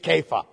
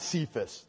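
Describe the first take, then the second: First: The name begins with a hard k sound. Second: The name begins with a soft s sound. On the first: The speaker calls it right. "It's Kepha" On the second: The speaker calls it wrong. "Not Cephas. That's the southern pronunciation"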